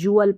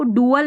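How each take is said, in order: First: It starts with a 'j' sound. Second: It starts with a plain 'd' sound. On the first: The speaker calls it right. "जुअल पढ़ना है" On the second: The speaker calls it wrong. "डुअल नहीं"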